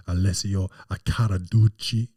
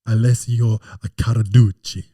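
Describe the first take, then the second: First: Rolled Italian-style name; Italian pronunciation. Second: Loud Australian-accented name. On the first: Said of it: "he doesn't sound like that". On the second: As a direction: belt the name out Aussie style. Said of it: "in an Australian accent". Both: Shown as a demonstration.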